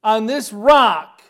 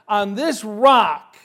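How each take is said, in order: First: On this rock, with ROCK hit hard and slow; stress on rock. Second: On this rock, with THIS hit hard and slow; stress on this. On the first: Preacher to congregation, loud slow stress on rock. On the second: Preacher to congregation, loud slow stress on this. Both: Acted. Preacher repeats the key phrase.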